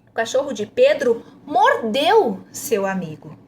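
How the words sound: The emphasis falls on "mordeu". "A próxima ênfase é em mordeu"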